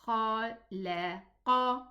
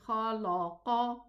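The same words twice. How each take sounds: First: The middle l sounds light, not filling the mouth. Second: The middle l sounds heavy, filling the mouth. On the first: The speaker calls it right. "No, it's khalaqa" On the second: The speaker calls it wrong. "Don't elevate the lam. Don't say khalaqa"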